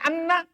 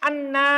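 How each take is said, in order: First: The final vowel is kept short. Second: The final vowel is held long. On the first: The speaker calls it wrong. "Bukan anna" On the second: The speaker calls it right. "Panjangnya anna"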